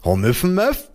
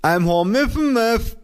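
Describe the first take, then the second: First: Amused, higher echo of the mushy lisp; grinning mimicry. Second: Slow, very high, mushy lisp; mother's muffled voice. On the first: Child echoing muffled mother, grinning mimicry. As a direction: repeat it as a teasing question with a grin. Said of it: "wiederholte ich grinsend". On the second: Mother repeating herself to her child, high muffled lisp. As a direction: repeat it slowly through a swollen mouth. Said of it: "sagte meine Mutter". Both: A narrator's reading.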